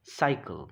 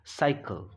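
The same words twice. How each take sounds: The two takes are said the same way.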